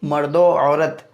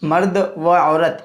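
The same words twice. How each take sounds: No difference in how they are said.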